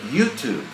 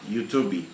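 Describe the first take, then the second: First: It ends on the consonant with no extra vowel. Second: An extra E vowel is added at the end. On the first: The speaker calls it right. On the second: The speaker calls it wrong.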